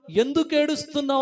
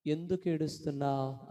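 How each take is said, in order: First: High, loud preacher's cry; declaimed question. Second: Gentle question. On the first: God questions weeping Hagar, loud declaimed question. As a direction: throw the question out to the whole congregation. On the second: God asks the weeping believer, gentle question. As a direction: ask it tenderly of someone weeping. God's question asked tenderly. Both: Acted.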